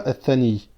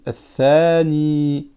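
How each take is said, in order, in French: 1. Les voyelles ne sont pas complètement allongées. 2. Les voyelles longues sont complètement allongées. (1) "On ne dit pas athani" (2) "On dit athani. On a une prolongation avec le alif et une prolongation avec le ya"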